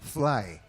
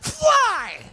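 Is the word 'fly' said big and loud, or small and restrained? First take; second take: small; big. First: It is said small, quiet and restrained. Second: It is said big, loud and projected. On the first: This is how it is done for television. "Kung sa T V" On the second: This is how it is done for theater. "Pag sa theater, ... Lalakihan mo palagi"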